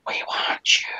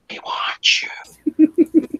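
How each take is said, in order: First: A breathy ghostly whisper; creepy whisper. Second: Very slow whisper, higher, stretched out; drawn-out creepy whisper. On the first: Voice in the dark hallway taunting the boy, whispered. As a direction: whisper it like something hiding in the dark. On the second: Hidden voice luring the scared kid, slow whisper. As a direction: drag the words out in a ghostly whisper. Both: Retold or imitated. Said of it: "The next thing I hear".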